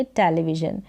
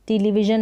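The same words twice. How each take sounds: First: टेलीविजन starting with टे, as teh-lee-vision; pronounced with TE. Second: टेलीविजन starting with टी, as tee-lee-vision; mispronounced first vowel. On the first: Teacher corrects the reading, टेलीविजन with टे first. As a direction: open e in the first syllable of टेलीविजन. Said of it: "टीई को टे". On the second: Teacher shows learners what not to say, टेलीविजन with टी first. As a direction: say टेलीविजन as टीलीविजन, long ee first. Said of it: "नहीं पढ़ेंगे". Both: Shown as a demonstration.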